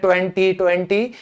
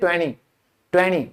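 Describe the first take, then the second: First: The t after the n is clearly pronounced. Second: The t after the n is silent. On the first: The speaker calls it wrong. "नब्बे percent लोग English में बोलते हैं ट्वेंटी ट्वेंटी, ये नहीं होता" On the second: The speaker calls it right. "वो हमेशा कहेंगे ट्वेंटी ट्वेंटी, टी तो साइलेंट है"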